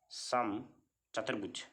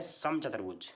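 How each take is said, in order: First: समचतुर्भुज split slowly, pause after सम; समचतुर्भुज spaced out slowly for the class; slow dictation. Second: Said in the usual way. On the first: Real, not acted. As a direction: say समचतुर्भुज in two drawn-out parts, सम then चतुर्भुज. Teacher repeats term for class.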